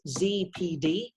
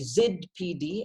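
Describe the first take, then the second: First: The letters are said in an American accent. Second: The letters are said in a non-American accent.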